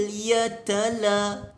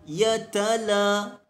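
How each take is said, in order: Both takes have the same delivery.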